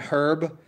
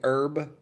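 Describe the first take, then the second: First: The word starts with an h sound. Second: The word starts without an h sound.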